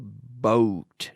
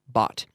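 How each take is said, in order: First: The vowel sounds like the one in boat. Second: The vowel sounds like the one in pot. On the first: The speaker calls it wrong. "But we don't say boat" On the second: The speaker calls it right. "It rhymes with words like pot or not"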